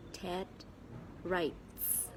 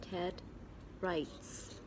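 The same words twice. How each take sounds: The two takes are said the same way.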